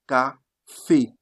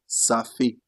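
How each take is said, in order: First: The word starts with a k sound. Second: The word starts with an s sound. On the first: The speaker calls it right. "You say café, because you are not having a here. That's why you took the sound ka" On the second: The speaker calls it wrong. "They don't say ça fait"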